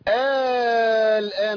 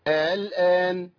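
First: The initial hamza becomes a long alif. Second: The initial hamza is softened between hamza and vowel. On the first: "انا عملت كده، عملت ايه؟ ابدال" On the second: "وليا فيهم التسهيل"

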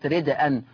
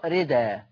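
First: The word has a glottal stop after the d. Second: The word has no glottal stop after the d. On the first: "إلا في كلمة ردءًا" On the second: "تقرأ ردا"

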